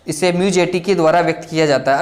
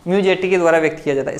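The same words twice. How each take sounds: First: Said in the usual way. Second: Rushed fast dictation; talking too fast. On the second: Real, not acted. Teacher rushing through notes, fast. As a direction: rattle the line off quickly. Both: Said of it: "मैं कुछ ज़्यादा ही तेज बोल रहा हूँ".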